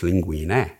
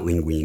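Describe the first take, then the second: First: It is said with an Italian pronunciation. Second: It is said with an Americanized pronunciation. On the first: The speaker calls it right. "it's linguine" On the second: The speaker calls it wrong. "It's not linguine"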